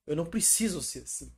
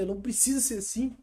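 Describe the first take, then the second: First: Said in the usual way. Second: Higher, rising, with the weight on preciso; emphatic realization. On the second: Retold or imitated. Repeating the realization about the church's expectations, emphatic and higher. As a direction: say it again as a liberating outburst.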